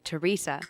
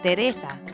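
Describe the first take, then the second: First: The name is said with English vowels. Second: The name is said with Spanish vowels. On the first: "In English, we say" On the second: "In Spanish, we say"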